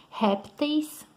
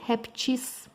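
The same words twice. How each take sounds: First: Répteis stressed on RÉP, ending in -teis; first accepted plural. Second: Répteis said as reptis, ending in a long -tchis; alternative plural. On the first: Teacher giving students the common plural, répteis stressed on RÉP. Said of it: "Tem duas formas de usar". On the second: Teacher offering students the rarer correct form, répteis said as reptis. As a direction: turn the ending of répteis into a drawn-out TIS. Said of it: "mas também é correto". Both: Shown as a demonstration.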